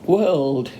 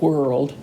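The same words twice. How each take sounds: First: The word is said with careful, precise diction. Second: The word is said in a casual, everyday way. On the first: This is the proper educated way to say it. "She said something like whirled" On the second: This is the ordinary way the child said it. "instead of whirled"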